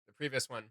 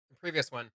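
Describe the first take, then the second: No difference in how they are said.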